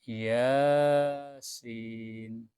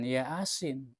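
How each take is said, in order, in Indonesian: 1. Vokal pertama dibaca panjang. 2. Vokal pertama dibaca pendek. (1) "Ya-nya panjang" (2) "bukan Yasin"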